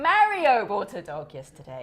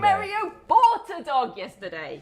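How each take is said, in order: First: The stress falls on the word Mario. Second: The stress falls on the word bought. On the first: It was Mario, not Maria. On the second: He bought it, he did not steal it.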